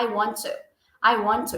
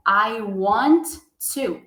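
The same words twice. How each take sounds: First: "I want to" joined, one T; linked sounds. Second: "I want" then a pause before "to"; word by word. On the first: Teacher modelling native linking, one T. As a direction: say it as a native, running together. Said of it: "Ele vai juntar e falar". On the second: Teacher imitating beginners, word by word. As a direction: read each word apart like a beginner. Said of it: "de ler essa seguinte frase assim". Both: Shown as a demonstration.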